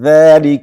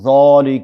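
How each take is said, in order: First: The first vowel is light and thin. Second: The first vowel is full and heavy. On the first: The speaker calls it right. "بلکې ذلك باریک" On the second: The speaker calls it wrong. "ذالک ونه وایو"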